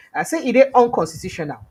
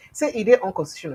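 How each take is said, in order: First: Said in the usual way. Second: Said through hiccups. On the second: Real, not acted. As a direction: hiccup while speaking. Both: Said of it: "Sorry, I'm hiccuping".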